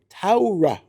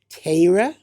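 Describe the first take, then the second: First: The first vowel is an au-like sound. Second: The first vowel has a Litvak-style quality. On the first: "A U, like that's the yucky pronunciation" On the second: "That's what a, a true Litvak would say"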